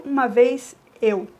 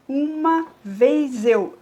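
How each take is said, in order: First: "uma vez eu" with vez and eu run together; joined syllables. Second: Uma vez eu, each syllable apart, slowly; separated syllables. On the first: Teacher shows the right scansion, syllables joined. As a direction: join "vez eu" into one syllable. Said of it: "Eu junto aqui". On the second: Teacher shows the wrong scansion, words pulled apart. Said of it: "eu não digo". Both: Shown as a demonstration.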